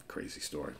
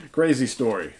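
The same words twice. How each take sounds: First: Breathy whispered aside. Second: Louder, higher declaration; loud exclamation. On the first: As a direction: whisper it to yourself. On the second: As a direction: proclaim it to the viewers. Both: Shown as a demonstration. Whispered then repeated aloud.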